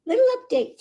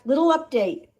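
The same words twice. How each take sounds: First: "Little update" squeaked much higher; high cooing. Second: Said in the usual way. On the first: Real, not acted. Rescuer repeats the update to the kitten, "Little update" much higher.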